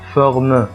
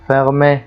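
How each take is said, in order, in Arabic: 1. الكلمة تنتهي بدون حركة 'ay'. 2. تنتهي الكلمة بصوت الحركة 'ay'. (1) "لا خطأ" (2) "وتجعله مثل حرف ال A في نطقه باللغة الإنجليزية"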